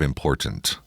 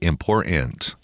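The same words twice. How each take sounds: First: The last syllable is weak and unstressed. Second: The last syllable is strongly stressed and articulated. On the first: "that we have said prior to this time" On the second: "the last syllable is more stressed than it was before"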